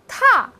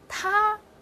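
First: The pitch falls sharply from high to low. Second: The pitch stays high and level.

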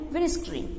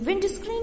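First: The d at the end of 'wind' is dropped. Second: The d at the end of 'wind' is pronounced. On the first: "लेकिन इसको छोड़ देंगे विंड screen, ऐसे rapidly बोलना है" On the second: "ये विंड screen है"

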